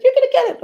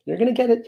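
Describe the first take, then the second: First: Very high-pitched little squeal; playful squeal. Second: Said in the usual way. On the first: Acted. Cooing to his kittens, playful high squeal. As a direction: squeak it playfully, far up in falsetto.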